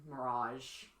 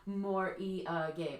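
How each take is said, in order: First: It is said with a British pronunciation. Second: It is said with a Japanese pronunciation. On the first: "In Britain" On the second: "morige in Japanese"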